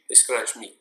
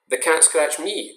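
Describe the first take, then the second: First: Said in the usual way. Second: Slow and higher, "The cat scratched me" leaning toward "me"; slow, raised demo of the personal reading; slow higher demo with weight on "me"; personal emphasis. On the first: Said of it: "The cat did not scratch you". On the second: Shown as a demonstration. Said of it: "it's personal".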